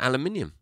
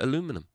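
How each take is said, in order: First: It is said with five syllables, British style. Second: It is said with four syllables, American style. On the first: This is what people in England call it. "We call it aluminium" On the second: This is what people in America call it. "And you call it aluminum"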